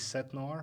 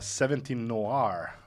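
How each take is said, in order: First: The number is said in French. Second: The number is said in English. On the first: The speaker calls it right. "Is it supposed to be like this" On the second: The speaker calls it wrong. "I believe I'm saying it wrong"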